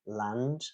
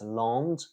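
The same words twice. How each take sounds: First: The vowel is oral, with a clear n and d. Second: The vowel is nasal, sounding close to 'lond'. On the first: The speaker calls it right. "L A N D, land" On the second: The speaker calls it wrong. "that's going to be difficult to understand"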